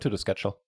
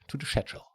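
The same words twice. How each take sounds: First: It is said in an American accent. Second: It is said in a British accent.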